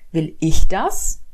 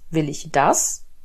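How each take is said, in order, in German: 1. Das Wort „ich“ wird betont. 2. Das Wort „will“ wird betont.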